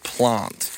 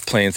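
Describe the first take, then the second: First: It is said with a South Australian vowel. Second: It is said with an other Australian vowel. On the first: "the South Australians say plant" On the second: "everywhere else says plant"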